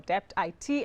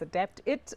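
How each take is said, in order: First: The last part is spelled out as letters. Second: The last part is said as one word. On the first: The speaker calls it right. "and I said Adapt I T" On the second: The speaker calls it wrong. "whether it's Adapt It or"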